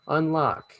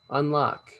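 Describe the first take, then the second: No difference in how they are said.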